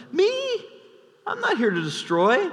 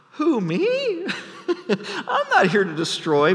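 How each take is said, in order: First: Lightly high feigned innocence; the same claim, a little calmer; mock innocent. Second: High, feigned surprise with a laugh; a general protesting too much; mock innocent Joab. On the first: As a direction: repeat the denial, still pretending. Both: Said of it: "And Joab says".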